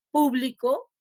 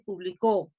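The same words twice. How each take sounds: First: "público" stressed on its first syllable. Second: "publicó" stressed on its last syllable; stress on final CÓ. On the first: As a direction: hit PÚ in PÚ-bli-co. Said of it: "No es lo mismo decir". ("público" con acento en la primera sílaba, PÚ) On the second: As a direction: hit CÓ in pu-bli-CÓ. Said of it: "No es lo mismo decir público que decir". ("publicó" con acento en la última sílaba, CÓ) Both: Shown as a demonstration.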